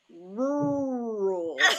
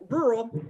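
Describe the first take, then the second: First: The word is eased into slowly. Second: The word is rushed through quickly.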